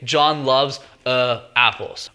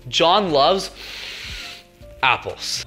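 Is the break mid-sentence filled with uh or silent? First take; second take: filled; silent. First: The break after loves is filled with uh. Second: The sentence breaks off silently after loves.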